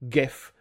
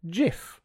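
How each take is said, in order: First: It starts with a hard G sound. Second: It starts with a soft J-like G sound. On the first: The speaker calls it right. "the word graphics begins with a hard G ... Therefore, it should be pronounced GIF" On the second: The speaker calls it wrong. "Some people pronounce it GIF with a soft G"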